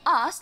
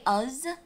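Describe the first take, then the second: First: The word ends with a hissing S sound. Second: The word ends with a buzzing Z sound. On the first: The speaker calls it right. "instead of saying us, like normal people" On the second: The speaker calls it wrong. "they say us"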